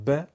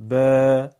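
First: ب said as a quick one-beat ba; short fatha. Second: ب stretched to a two-beat baa, much louder; long alef. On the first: Teacher giving pupils the one-beat fatha, short. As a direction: keep ب short, a single beat. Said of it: "صدای فتحه و الف مدی بخونیم". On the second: Teacher giving pupils the two-beat alef, louder and stretched. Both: Shown as a demonstration.

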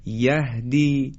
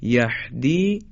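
First: "یهدی" slowly, with an airy, unconstricted h; open round h. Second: "یهدی" with a tight, rasping pharyngeal ح; wrongly constrict the throat on the h of "یهدی"; h turned into ح. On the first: Teacher models correct یهدی with open ه. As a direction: let breath flow freely in "یهدی". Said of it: "پس های دو چشم مثل". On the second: Teacher shows mistaken یهدی, h like ح. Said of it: "نزدیک به هی جیمی بگیم". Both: Shown as a demonstration.

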